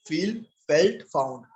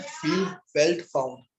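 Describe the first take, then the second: First: Said in the usual way. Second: Drawn out, word by word, slow; slow dictation, each word stretched; slow recitation. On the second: Shown as a demonstration. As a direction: spell out फील, felt, found slowly for students to copy. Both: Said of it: "पहला point again क्या करना है".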